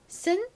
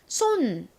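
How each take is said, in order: First: The vowel is a short reduced 'uh'. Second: The vowel is a full rounded 'o'. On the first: The speaker calls it right. "손이 아닌 쓴" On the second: The speaker calls it wrong. "보통은 son을 보시면 손 이렇게 많이 읽으시거든요"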